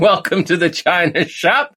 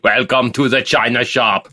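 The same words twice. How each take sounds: First: It is said in an ordinary, plain accent. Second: It is said in a put-on Austrian accent.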